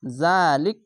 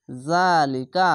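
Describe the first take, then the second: First: "জালিক" ending on a vowelless k; stopping pronunciation. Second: Slow "জালিকা" with a long "জা" and voiced final "কা"; drawn-out vowel. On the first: Teacher showing how to pause at the verse mark, final consonant closed. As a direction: hold "জা", stop dead on the ক of "জালিক". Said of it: "এভাবে থেমে যাবেন". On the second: Teacher showing khara-zabar lengthening, first vowel drawn out. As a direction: stretch "জা", then say "কা" in full. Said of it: "খাড়া যাবার এক আলিফ টেনে পড়বেন". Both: Shown as a demonstration.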